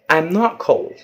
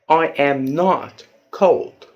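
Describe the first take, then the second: First: It is spoken faster with a contraction. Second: It is spoken slowly with full words.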